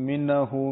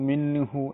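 No difference in how they are said.

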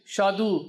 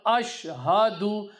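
First: The opening vowel is dropped from the word. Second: The opening vowel is kept at the word's start. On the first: The speaker calls it wrong. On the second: The speaker calls it right.

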